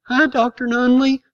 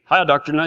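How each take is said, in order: First: Hi pitched higher, bright and eager; a kid's eager hello, pitched up. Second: Hi dropped lower, small and meek; a timid kid's hello, pitched down. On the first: Boy greeting the town doctor, a higher eager hi. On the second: Boy correcting his greeting to the doctor, lower and meek. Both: Shown as a demonstration. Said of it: "I mean".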